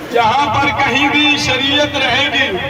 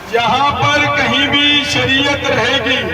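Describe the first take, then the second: No difference in how they are said.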